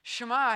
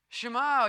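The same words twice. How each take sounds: First: Shema said louder; Hebrew shema. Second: Shema said louder, stress on ma; Hebrew shema. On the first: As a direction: call out Shema. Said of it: "hear, Yisrael". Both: Shown as a demonstration.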